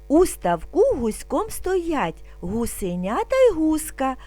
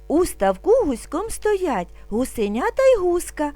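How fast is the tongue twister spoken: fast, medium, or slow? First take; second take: slow; medium. First: It is spoken calmly at a slow pace. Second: It is spoken at a somewhat faster pace. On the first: "Спочатку будемо вимовляти спокійно, не спіша" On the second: "А тепер трошки швидше"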